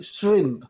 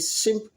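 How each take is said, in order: First: The word is said with a clear R sound. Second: The word is said without the R sound. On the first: The speaker calls it right. "but there's an R there, so ... we say shri- shrimp" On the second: The speaker calls it wrong. "we don't say shrimp"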